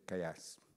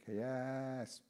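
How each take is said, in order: First: The second syllable is short. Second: The second syllable is drawn out. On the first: It happened recently. "if it happened yesterday, or last week, you say kayas" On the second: It happened many years ago. "something that happened 15 years ago, you say kayas"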